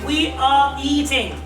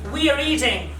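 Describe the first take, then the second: First: Each word is said separately and in full. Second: 'Are' is reduced and runs into 'eating'.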